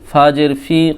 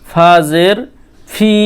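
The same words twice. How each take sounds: First: The phrase is said quickly in a run. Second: The phrase is said slowly and deliberately. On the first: "তাড়াতাড়ি বলার চেষ্টা করবেন" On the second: "এইভাবে পড়বেন প্রথমে"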